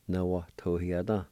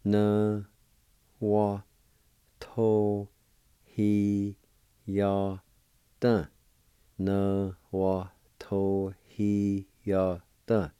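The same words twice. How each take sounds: First: Said in the usual way. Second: Na, wa, to, hi, ya, da as separate, held syllables. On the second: Shown as a demonstration. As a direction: hold each of Na, wa, to, hi, ya, da, pausing between. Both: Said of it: "It's pronounced like this".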